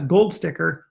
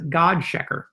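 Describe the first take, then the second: First: The name is said the English way. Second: The name is said the German way.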